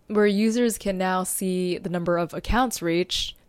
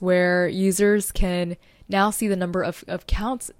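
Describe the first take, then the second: First: Said in the usual way. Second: Tripping up on "of accounts"; stumbling over words. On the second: Real, not acted. Podcaster listing new analytics to listeners, stumbling over her words. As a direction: falter and repeat "of" before "accounts". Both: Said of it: "stumbling over my words".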